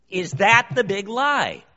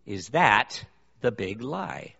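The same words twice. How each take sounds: First: "Is that the big lie?" shouted higher and louder, with the stress on "that"; preaching shout. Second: Slow, weighted ask with the stress on "that"; probing question. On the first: Preacher to congregation, a full-force preaching shout. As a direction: drive it home to the back row. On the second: Preacher to congregation, a slow, probing question. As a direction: pose "that" as the question to ponder. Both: Real, not acted. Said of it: "rhetorical question asked twice".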